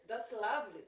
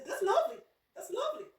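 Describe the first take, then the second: First: Said in the usual way. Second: Much higher, lilting Yorkshire "lovely" with rising ends; playful imitation of a Yorkshire sing-song accent. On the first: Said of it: "even if they want to say". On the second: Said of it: "you may think they're singing".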